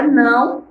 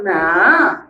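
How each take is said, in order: First: Said in the usual way. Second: "não" reduced to a long "nã", no final glide; Maranhão pronunciation. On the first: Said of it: "nós pegamos a palavra não". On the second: Shown as a demonstration. Teacher demonstrates her region's form, "não" said as drawn-out "nã". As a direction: stretch "não" into an open nasal "nã". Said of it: "e falamos não".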